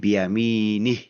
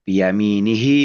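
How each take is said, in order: First: The word ends on a bare h sound. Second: The final h is followed by an i vowel. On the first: The reader stops at this word. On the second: The reading continues without stopping.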